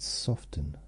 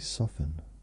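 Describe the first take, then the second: First: The t sound in the middle is pronounced. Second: The t sound in the middle is silent. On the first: "I just said soften. Today I've decided to use the word T in that" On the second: "I usually just say soften. it's kind of a silent T"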